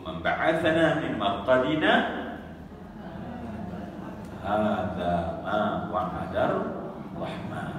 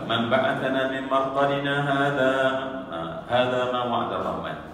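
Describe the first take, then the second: First: There is a pause right after marqadina. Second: There is no pause right after marqadina. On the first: It asks who woke us; this is what was promised. The speaker calls it right. "kita kena berhenti kat situ, mesti berhenti" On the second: It says the Merciful never promised this. The speaker calls it wrong. "tak boleh baca"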